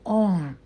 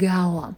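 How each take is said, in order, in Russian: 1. Гласный — один долгий ровный звук. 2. Гласный скользит через три звука. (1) "сейчас все чаще читают через длинный звук" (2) "раньше все время читали через трифтонг our"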